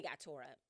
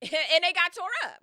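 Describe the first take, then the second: First: Low, subdued delivery; understated. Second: High, loud exclamation out of a laugh; laughing loud repeat. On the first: Storyteller reports the crew's fate, low and understated. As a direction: drop the outcome quietly. First low take of the outcome. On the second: Storyteller relishes the crew's fate, loud and laughing. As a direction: belt it out, amused. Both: Real, not acted.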